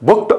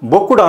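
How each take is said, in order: First: The word ends in a crisp t sound. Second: The word ends in a voiced du sound. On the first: The speaker calls it right. "బుక్డ్ బుక్డ్ అనాలి" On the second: The speaker calls it wrong. "బొక్కుడు అనకూడదు"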